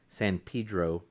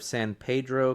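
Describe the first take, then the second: First: San Pedro is said the way locals say it. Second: San Pedro is said in a non-local way. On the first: The speaker calls it right. "That's how they say it" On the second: The speaker calls it wrong. "No, sorry"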